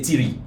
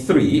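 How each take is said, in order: First: It begins with a hard 't' sound. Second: It begins with a soft 'th' sound. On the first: The speaker calls it wrong. "they say tiri" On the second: The speaker calls it right. "instead of saying three"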